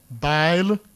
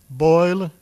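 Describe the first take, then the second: First: The vowel is an 'eye' sound. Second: The vowel is an 'oy' sound. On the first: This is the creole and older British pronunciation. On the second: This is the current standard pronunciation.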